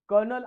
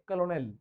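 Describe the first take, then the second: First: It is said in two syllables, like kernel. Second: It is said in three syllables, like ko-lo-nel. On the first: "British English मध्ये कर्नल असं pronunciation केलं जातं" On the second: "American English मध्ये कलोनेल"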